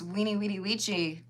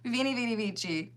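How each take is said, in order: First: The words begin with a w sound. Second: The words begin with a v sound. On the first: The speaker calls it right. "apparently it's" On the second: The speaker calls it wrong.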